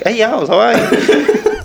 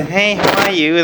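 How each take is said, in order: First: Much higher, slow, laughing mock greeting; mocking caller reply. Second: Higher, friendly phone hello; own phone greeting. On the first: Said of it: "They were like". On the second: Shown as a demonstration. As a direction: greet the caller as you answer the phone. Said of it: "when I pick up the phone, I say".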